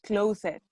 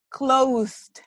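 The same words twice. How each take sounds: First: "closet" as two syllables, clo-sed, for closed; mispronunciation. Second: "Closed" as one syllable, long o; correct pronunciation. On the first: Teacher showing the mistake to avoid, mispronunciation. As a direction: split "closet" with an extra vowel before the end. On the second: Teacher correcting students' word, correct pronunciation. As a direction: say "Closed" without any vowel before the d. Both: Shown as a demonstration. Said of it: "not closet".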